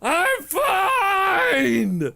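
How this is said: It is screamed with full, over-the-top commitment.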